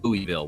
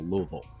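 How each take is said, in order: First: The city name has a non-local pronunciation. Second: The city name has the local pronunciation. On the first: The speaker calls it wrong. "not Louisville" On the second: The speaker calls it right. "they will tell it L Louisville"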